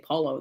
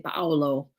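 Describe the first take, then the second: First: The vowels merge into two syllables. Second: Every vowel is sounded, giving three syllables. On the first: The speaker calls it wrong. "They don't say Paulo" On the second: The speaker calls it right. "you say every syllable"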